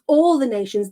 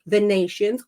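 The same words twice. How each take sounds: First: "all" pushed up and out before "the nations"; stress on all. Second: Said in the usual way. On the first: Shown as a demonstration. Preacher insisting to listeners that "all" means every nation. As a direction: repeat it, landing on "all". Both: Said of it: "The word all means every".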